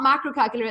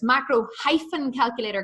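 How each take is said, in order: First: Said in the usual way. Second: "hyphen" picked out clearly as the correction; stress on hyphen. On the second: Real, not acted. Coach correcting the team's web address, stress on "hyphen". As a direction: spell out the missing word "hyphen" with emphasis. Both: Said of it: "it's not macro calculator".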